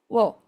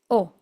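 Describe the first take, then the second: First: The syllable starts with a w sound. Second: The syllable is a plain vowel without w. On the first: The character is used outside the particle, as in foreign words. "en este caso, wo" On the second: The character is used as a grammatical particle. "se pronuncia simplemente o"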